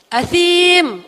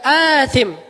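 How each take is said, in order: First: The second syllable has the long vowel. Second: The first syllable has the long vowel. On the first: "Allah ngomongnya gitu" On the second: "bukan asim"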